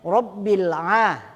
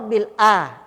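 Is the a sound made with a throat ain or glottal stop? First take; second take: ain; glottal stop. First: The a starts with a deep throat ain. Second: The a starts with a plain glottal stop. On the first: Lord of the worlds. The speaker calls it right. "a ain di situ kan" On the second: Lord of the sick. The speaker calls it wrong. "penyebutannya huruf a, alif atau hamzah"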